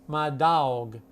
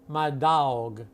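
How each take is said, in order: No difference in how they are said.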